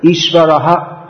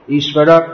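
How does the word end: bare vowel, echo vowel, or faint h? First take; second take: echo vowel; bare vowel. First: It ends with an h plus a repeated vowel. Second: It ends on the bare vowel, no h. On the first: "One way is to pronounce the vowel like" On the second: "some just seem to leave it out altogether"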